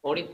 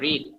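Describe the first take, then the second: First: The word starts with a pronounced w sound. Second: The word starts with no w sound. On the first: The speaker calls it wrong. "অরিত না" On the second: The speaker calls it right. "আমরা ডাব্লিউ কে পড়বো না"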